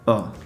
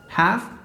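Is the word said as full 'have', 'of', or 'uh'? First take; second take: uh; have. First: The word is reduced to a bare 'uh' vowel. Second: The word is said in full with its consonants.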